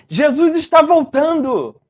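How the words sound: It is said in a glad, joyful tone. The return is good news. The speaker calls it right. "Você pode anunciar Jesus voltando com alegria"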